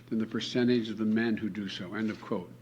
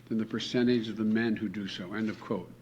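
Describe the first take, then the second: No difference in how they are said.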